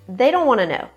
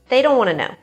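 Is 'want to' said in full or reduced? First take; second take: reduced; reduced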